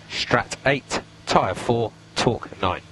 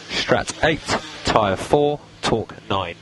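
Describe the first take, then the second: No difference in how they are said.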